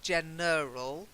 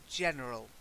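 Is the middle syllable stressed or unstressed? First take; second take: stressed; unstressed. First: The middle syllable carries stress. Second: The middle syllable carries no stress. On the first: The speaker calls it wrong. "not general. It's there's no stress on the er" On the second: The speaker calls it right. "there's no stress on the er"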